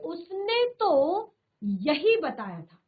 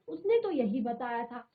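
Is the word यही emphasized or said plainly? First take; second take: emphasized; plainly. First: The word यही gets extra emphasis. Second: It is said plainly, without extra emphasis.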